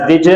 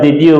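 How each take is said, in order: First: The two words are run together and reduced. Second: The two words are said separately and fully. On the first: "we pronounce did you" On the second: "Instead of did you"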